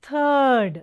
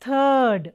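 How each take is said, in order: The two takes are said the same way.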